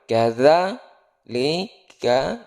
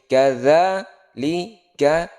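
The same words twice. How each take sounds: The two takes are said the same way.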